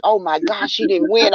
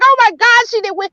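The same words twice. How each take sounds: First: Said in the usual way. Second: Higher and louder, half laughing; higher, louder, half-laughing oh my God; worked-up retelling. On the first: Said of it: "And I was like". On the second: Retold or imitated. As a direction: replay the moment she thought it was lost.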